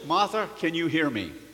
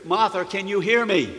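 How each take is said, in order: First: It is said at normal speaking volume. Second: It is shouted at very high volume. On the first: "he said in a normal voice" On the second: "he literally shouted directly into her ear"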